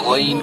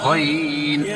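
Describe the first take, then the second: First: The voice stays steady through the word. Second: The voice wavers through the word. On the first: The speaker calls it right. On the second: The speaker calls it wrong.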